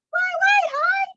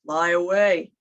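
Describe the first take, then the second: First: Very high squeaky call. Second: Lower, rumbling call. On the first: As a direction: squeak it up high like a tiny bird. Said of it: "the other named High". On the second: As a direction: say it down low and big. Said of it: "one named Low". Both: Shown as a demonstration.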